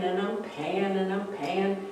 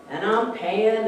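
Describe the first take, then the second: First: Fading weary repetition. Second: Said in the usual way. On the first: Shown as a demonstration. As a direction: let it trail off tiredly.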